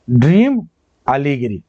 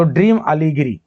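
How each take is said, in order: First: dream rising and held, pause, अलीगिरी falling low; word-by-word repetition. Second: Said in the usual way. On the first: Shown as a demonstration. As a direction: dictate dream, then अलीगिरी, as two separate pieces. Teacher repeats answer word by word.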